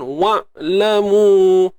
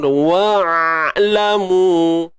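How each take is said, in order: First: The ain sound is choked off in the throat. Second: The ain sound is exaggerated with a wide-open mouth. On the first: "kalau tertahan" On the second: "jangan buka mulut luah benar. Nak nampak sangat bunyi dia"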